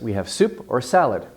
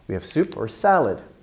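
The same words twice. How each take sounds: First: Soup and salad get equal stress. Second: The last word, salad, gets much stronger stress. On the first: "I would tend to give it equal stress" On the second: "the last important word at the end of a sentence, can get even more stress. You can kind of double the stress"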